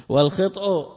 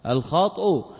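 First: والخطأ as "wal-khit'u", short "i" and vowelless ta; kasra then sukun. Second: الخطأ as "al-khat'u", open "a" and vowelless ta; fatha then sukun. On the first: Teacher explaining the word meaning sin, والخطأ said "wal-khit'u". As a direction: pronounce والخطأ with kasra on the kha. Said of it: "خطأ بالكسر والإسكان". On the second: Teacher explaining the word meaning error, الخطأ said "al-khat'u". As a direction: pronounce الخطأ with fatha on kha, rhyming in pattern with al-wat'. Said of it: "بفتح فسكون مثل الوطء". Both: Shown as a demonstration.

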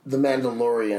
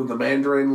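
First: The Mandalorian said correctly with full syllables; correct name. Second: The Mandarin said instead of Mandalorian; wrong name. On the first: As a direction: say The Mandalorian, man-da-LOR-ian. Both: Real, not acted.

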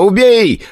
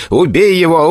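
First: Much higher, louder final "убей", peaking in rage; "убей" flung out at the top of the voice; shouting louder. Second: Shouting kill. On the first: Igor urges the hellhound on, rising to a frenzied shout. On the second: Igor orders the dog to kill the orc, furious shout. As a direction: spit out "убей" as a furious command. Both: Acted. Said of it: "кричал Игорь".

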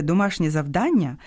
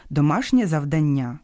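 First: «завдання» stressed on the middle syllable, ДА; correct stress. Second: «завдання» stressed on the last syllable, НЯ; wrong stress. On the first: Host naming homework properly, middle-syllable stress. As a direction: land on ДА in «завдання». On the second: Host quoting pupils' mistake, wrong final stress. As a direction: push the stress onto НЯ in «завдання». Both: Shown as a demonstration. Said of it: "коли його називають неправильно".

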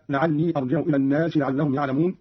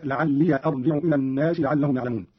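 First: Said in the usual way. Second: "لعلي" ending in a short -ya; open final ya. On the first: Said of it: "قرأ قالون بفتح الياء". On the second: Shown as a demonstration. Teacher showing Qalun's reading, "لعلي" said la'alliya. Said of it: "بفتح الياء هكذا".

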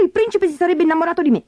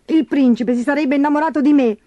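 First: Fast, very high peevish complaint; petulant, hurried grumbling; whining stepsister. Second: High, tearful-sounding put-on whine; self-pitying moan at normal pace; whimpering stepsister. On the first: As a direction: rattle off a shrewish high whine. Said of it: "si lagnava Berta". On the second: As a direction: snivel like a spoilt crybaby. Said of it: "piagnucolò Gertrude". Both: A narrator's reading.

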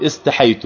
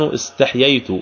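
First: استحيت as is-ta-ḥay-tu, one yā only; permissible variant. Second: استحييت as is-taḥ-yay-tu, with y after ḥ; eloquent form. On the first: Teacher sums up the other allowed word, shortened pronunciation. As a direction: drop the extra y in استحيت. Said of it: "ويجوز أيضًا في اللغة أن يقول". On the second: Teacher sums up the classical word, eloquent pronunciation. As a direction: keep both yā sounds in استحييت. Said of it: "فاللفظ الفصيحة أن يقول". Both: Shown as a demonstration.

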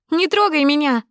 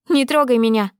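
First: Even higher, louder «Не трогай меня!» with the stress on трогай; final scream of «Не трогай меня!», hitting трогай; shrill final «Не трогай меня!» at her father; repeated angry shout. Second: Loud raised «Не трогай меня!» pulling away; loud, high furious «Не трогай меня!»; angry shout. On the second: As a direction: snap «Не трогай меня!» at the father. Daughter pulls away from father. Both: Acted.

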